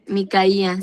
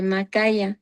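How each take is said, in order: First: Micaía, said mi-ka-I-a; Micaía with an i after the M, stress on the I; Micaía as mi-ka-I-a, four syllables; corrected name. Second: Macaya, said ma-KA-ya; mispronounced name. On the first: Shown as a demonstration. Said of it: "sí, tienes razón". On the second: Real, not acted. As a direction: Macaya with an a after the M, stress on KA. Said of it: "pensé que se decía Micaía".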